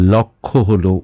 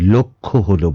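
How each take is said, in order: First: The first vowel is an open 'aw' sound. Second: The first vowel is a closed 'o' sound. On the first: The speaker calls it wrong. "বলবো না" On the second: The speaker calls it right. "বলবো"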